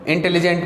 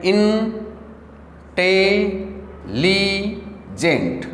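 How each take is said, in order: First: Said in the usual way. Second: intelligent split into four slow, held syllables. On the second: Shown as a demonstration. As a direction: say इन... टे... ली... gent with pauses. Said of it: "four syllable intelligent के हो गए". (Intelligent को तोड़कर, धीरे-धीरे)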